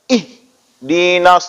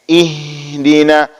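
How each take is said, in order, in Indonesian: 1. Suara berhenti keras setelah h. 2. Kata ini mengalir lancar tanpa berhenti. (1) "itu juga salah" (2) "sambil juga berjalan suaranya"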